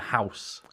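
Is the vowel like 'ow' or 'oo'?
ow. The vowel sounds like 'ow', southern English style.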